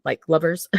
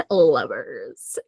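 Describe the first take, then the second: First: Said in the usual way. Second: Low, drawn-out playful echo; playful drawl. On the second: Pretend. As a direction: savour the word in a low, teasing voice. Playful repeat after laughing.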